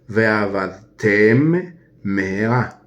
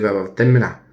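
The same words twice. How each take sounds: First: The two m sounds are kept clearly apart. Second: The two m sounds run together into one. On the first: The speaker calls it right. "Separar entre la mem y la mem" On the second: The speaker calls it wrong. "no se dice Veabatem Meherá"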